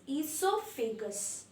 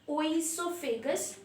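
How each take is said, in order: First: The word begins without any 'oh' sound. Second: The word begins with an added 'oh' sound. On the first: The speaker calls it right. "O is silent" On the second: The speaker calls it wrong. "It is not oesophagus"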